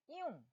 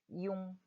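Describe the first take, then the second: First: The whole syllable drops sharply in pitch. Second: The syllable is said without a falling pitch. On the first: "이 전체가 확 떨어지게 소리 내시면 돼요" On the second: "먼저 전체 음절 어떻게 읽었죠?"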